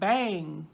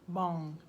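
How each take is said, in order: First: The vowel sounds like the one in 'bang'. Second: The vowel sounds like the one in 'bong'. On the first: This is the usual American way of saying it. "in America we we pronounce ... B A N G is like bang" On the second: This is the way an online source recommends. "it says to pronounce the B A N G bong"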